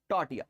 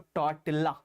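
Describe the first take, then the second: First: The double L is said as a Y sound. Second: The double L is said as an L sound. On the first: The speaker calls it right. "Spanish में ये double एल जहां जाता है ना, यह हो जाता है, तो इसको पढ़ते हैं टॉर्टिया" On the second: The speaker calls it wrong. "कुछ डेढ़ सियाने पढ़ाते हैं इसको टॉर्टिल्ला"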